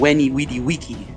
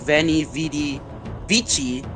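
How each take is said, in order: First: The words begin with a W sound. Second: The words begin with a V sound. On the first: "the V made a W sound, and the chi made a key sound" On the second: "instead of"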